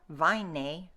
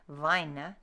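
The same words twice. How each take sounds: First: The final vowel is stressed. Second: The final vowel is a weak unstressed schwa. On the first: The speaker calls it wrong. "don't stress them. Don't go vine" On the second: The speaker calls it right. "just a little unstressed schwa"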